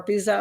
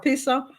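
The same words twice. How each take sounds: First: "Pisa" pronounced PEE-zuh, voiced z in the middle; Pisa with a z sound. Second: "Pisa" pronounced PEE-suh, hissless plain s in the middle; Pisa with an s sound. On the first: Host unsure of the tower's name, Pisa with a z. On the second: Host showing viewers the tower photo, Pisa with an s. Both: Shown as a demonstration. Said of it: "I don't know how you pronounce it".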